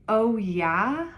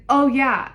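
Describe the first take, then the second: First: OH YEAH rising as a question; questioning echo. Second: Loud, high retold reply; emphatic mock agreement. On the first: Retold or imitated. Patient doubting the nurse's answer, questioning echo of OH YEAH. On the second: Nurse answering patient's question about lead, loud and emphatic. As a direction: imitate a breezy, emphatic yes.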